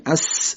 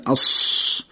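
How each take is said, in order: First: اس with a plain light س, tongue flat; a thin hissing اس for سین; نازک گفتن اس; thin s sound. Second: اس said thick like ص, tongue hollowed; درشت گفتن اس; heavy emphatic s. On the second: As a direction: make اس heavy and dark for صاد. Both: Shown as a demonstration.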